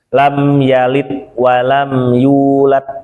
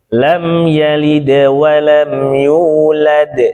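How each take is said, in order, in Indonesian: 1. Dibaca datar, tanpa sifat-sifat huruf. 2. Dibaca dengan tambahan tebal dan pantulan. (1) "Kaku banget ini" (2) "sifat itu disebut dengan penghias bacaan"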